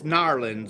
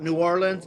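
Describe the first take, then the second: First: The city name is squeezed into two syllables. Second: The city name is said in full, all syllables.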